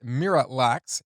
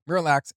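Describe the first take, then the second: First: Miralax said like mirror relax; M's pronunciation. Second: Said in the usual way. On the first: Shown as a demonstration. Explaining the lyric, Miralax said as mirror relax. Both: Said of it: "The way M pronounces it".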